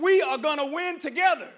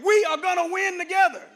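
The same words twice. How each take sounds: First: Higher and louder first try of the chant; rallying call. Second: Chanted, full shout, much higher and louder; chanted, shout it like a rally cry. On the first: Speaker to the freshmen, first loud try of the chant. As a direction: lead the crowd in the line, loud and high. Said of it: "I want you to tell them". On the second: Speaker showing the freshmen how the chant should be shouted, full shout. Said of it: "You gotta say it like I said it". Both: Shown as a demonstration.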